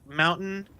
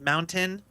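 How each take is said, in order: First: The final syllable is clipped and dropped. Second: The final syllable is fully pronounced. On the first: This is the local regional accent. "we drop like end syllables sometimes, like mountain" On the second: This is the standard West Coast way. "instead of mountain"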